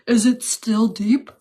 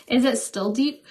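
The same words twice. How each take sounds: First: Deeper voice. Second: Said in the usual way. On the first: Pretend. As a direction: put on a deeper, slower voice. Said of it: "Talk in a deeper voice". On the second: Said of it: "mess with you guys".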